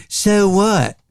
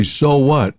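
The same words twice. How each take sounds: First: So what with a tight North Carolina O, pitched high; Southern drawl on So what, tight O; North Carolina accent. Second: Said in the usual way. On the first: Shown as a demonstration. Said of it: "In North Carolina, they say". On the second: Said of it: "let me give you a small, tiny example".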